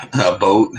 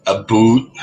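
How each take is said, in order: First: "boat" with a long oh vowel; contrasting pronunciation. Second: "boot" with a long oo for "about"; Canadian pronunciation. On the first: Contrasting Canadian versions of about, "a boat". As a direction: say "boat" with a rounded oh. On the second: Mimicking Canadians saying about, "a boot". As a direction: stress "boot", exaggerated oo vowel. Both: Retold or imitated. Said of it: "instead of saying boat".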